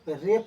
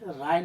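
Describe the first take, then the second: First: The vowel sounds like 'ay'. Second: The vowel sounds like 'eye'. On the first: The speaker calls it right. "इसको रे पढ़ना है" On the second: The speaker calls it wrong. "राय नहीं पढ़ना है"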